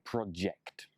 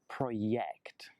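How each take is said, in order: First: The middle consonant is a J sound. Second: The middle consonant is not a J sound. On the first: The speaker calls it right. "you need the J sound" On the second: The speaker calls it wrong. "not project"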